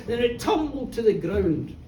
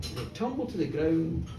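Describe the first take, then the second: First: Said in the usual way. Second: Fading echo. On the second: A narrator's reading. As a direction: lower and softer, dying away. Bull falls, told then echoed.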